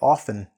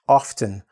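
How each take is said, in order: First: The T sound is dropped from the middle. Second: The T sound is pronounced in the middle. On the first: "more casual is to say, I often. The T is just dropped" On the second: "sometimes hear people say"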